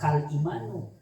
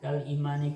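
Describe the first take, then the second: First: The last word ends with a u sound. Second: The last word ends with an i sound. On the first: The speaker calls it wrong. "enggak enggak kal imanu" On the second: The speaker calls it right. "makanya dibaca imani"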